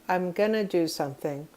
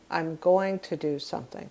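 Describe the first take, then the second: First: 'Going to' is reduced to 'gonna'. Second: 'Going to' is said in full. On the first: This is casual, everyday speech. "many English speakers will say" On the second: This is the form taught in class. "which is probably how you learned it in class"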